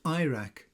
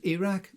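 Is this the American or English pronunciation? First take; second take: American; English. First: It is said with an American pronunciation. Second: It is said with an English pronunciation. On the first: "the Americans as Iraq" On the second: "The English pronounce the name as Iraq"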